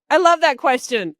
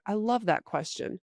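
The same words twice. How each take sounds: First: Loud, high I love that question with love hammered; over-eager canned stall; overdone placeholder. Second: Soft, even I love that question; relaxed sincere stall; calm placeholder. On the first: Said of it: "You can't go". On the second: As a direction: say I love that question quietly to buy time. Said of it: "you can put in the placeholder". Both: Shown as a demonstration.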